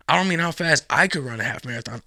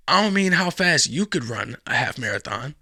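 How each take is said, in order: First: Emphatic contrast, leaning on "I"; stress on I. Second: Emphatic contrast, leaning on "you"; stress on YOU. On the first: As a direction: punch "I" to single yourself out. Contrasts himself with listener. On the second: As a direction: punch "you" to single out the listener. Contrasts listener with himself. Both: Real, not acted.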